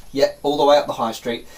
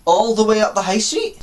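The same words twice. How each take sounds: First: Said in the usual way. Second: High, louder disbelieving question; put-on dismayed query, rising at the end; incredulous echo. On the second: Lost traveller querying the woman's directions, incredulous.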